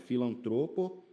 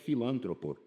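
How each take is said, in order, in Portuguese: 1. A tônica está na sílaba tro. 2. A tônica está na sílaba lan. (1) "Não, é filantropo" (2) "às vezes a pessoa pensa que é filântropo"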